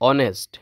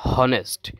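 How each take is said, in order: First: The word begins with a vowel, no h. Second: The word begins with an h sound. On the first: The speaker calls it right. "অনেস্ট sound আসছে, ও sound আসছে" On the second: The speaker calls it wrong. "এখানে হনেস্ট বলা যাবে না"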